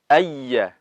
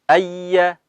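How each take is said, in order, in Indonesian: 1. Y yang digandakan mengalir terus dengan napas yang berlanjut. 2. Y yang digandakan mengalir terus dengan napas yang berlanjut.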